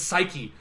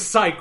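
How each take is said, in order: First: The word is said with two syllables. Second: The word is said with one syllable. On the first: The speaker calls it right. "how are you people not pronouncing this psyche?" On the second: The speaker calls it wrong. "Why are you saying psych?"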